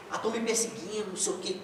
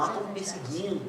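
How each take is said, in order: First: Softer whiny mimicry with a rising "tão"; mock paranoid complaint. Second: Softer, whiny mock of a paranoid person; mock paranoid complaint. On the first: Preacher repeats the paranoid churchgoer's complaint, soft whiny mimicry. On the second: Preacher mocks a paranoid churchgoer, soft whiny mimicry. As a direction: mimic someone who feels persecuted.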